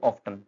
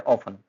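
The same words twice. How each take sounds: First: OFTEN with the T sounded, "off-ten"; common mispronunciation. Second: OFTEN with a silent T, "off-en"; correct pronunciation. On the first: Teacher showing learners the common mistake, T sounded in often. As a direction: say "often" pronouncing a clear T. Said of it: "क्या बोल देते हैं हम इसको". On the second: Teacher giving learners the correct word, silent T in often. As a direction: say "often" dropping the T entirely. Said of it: "इसका जो correct pronunciation है". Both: Shown as a demonstration.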